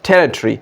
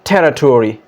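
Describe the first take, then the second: First: British accent, the ending reduced to 'tree'. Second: American accent, the ending said as full 'tory'. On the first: "ये British English में हम कहते हैं टेरिटरी" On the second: "लेकिन American English में इसको कहते हैं टेरिटोरी"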